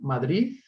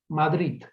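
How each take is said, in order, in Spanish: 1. La D final suena como una Z. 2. La D final se pronuncia al estilo catalán. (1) "La pronunciación como una Z" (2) "la variante vernácula, calco del catalán"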